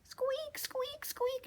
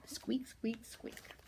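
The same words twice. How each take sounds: First: Very high whispered squeaks; mouse squeak demo. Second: Soft, hushed little squeaks; tiny whispered mouse squeaks. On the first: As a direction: squeak it high and breathy for them to copy. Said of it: "Let me hear you". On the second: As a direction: breathe the squeaks out quietly. Quiet echo of squeak. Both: Shown as a demonstration.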